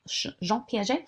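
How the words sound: The name is said with a French accent.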